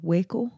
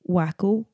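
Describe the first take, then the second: First: The first syllable sounds like 'way'. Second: The first syllable sounds like 'wack'. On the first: The speaker calls it right. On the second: The speaker calls it wrong. "No, it's not Wacko"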